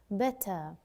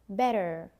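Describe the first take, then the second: First: The ending is a schwa with no r. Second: The r at the end is pronounced. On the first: "British English, we pronounce it as an uh" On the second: "an American, they would say better"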